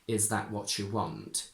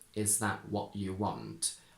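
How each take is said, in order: First: The t and y merge into a ch sound. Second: The t becomes a glottal stop before you. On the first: "perfectly correct to say" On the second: "I would say"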